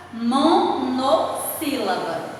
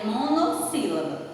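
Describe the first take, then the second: First: "monossílaba" split as mo, no, sílaba; broken-up emphasis. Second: Said in the usual way. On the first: Shown as a demonstration. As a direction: pause after "mo" and "no" in "monossílaba". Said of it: "quantidade de sílabas e a classificação". ("monossílaba" pausado, mo... no... sílaba) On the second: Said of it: "a classificação dela aí é".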